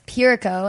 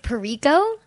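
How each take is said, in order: First: The stress is on the first syllable. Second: The stress is on a later syllable. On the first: The speaker calls it right. "the same stress in the first syllable as Unico" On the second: The speaker calls it wrong. "they think it's Pirico, but it's not"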